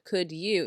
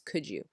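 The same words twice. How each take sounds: First: The D and Y sounds stay separate. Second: The D and Y merge into a J sound. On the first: "instead of could you" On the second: "it becomes could you"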